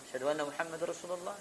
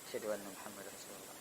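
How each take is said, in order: First: It is said in a loud, raised voice. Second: It is said in a quiet, low voice.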